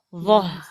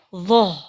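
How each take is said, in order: First: The final h sounds light and thin. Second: The final h sounds thick and heavy. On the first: The speaker calls it right. "Kalau H kecil, maka dirap renggangkan ketika woh" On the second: The speaker calls it wrong. "Jadi jangan sampai ikutan tebal woh gitu"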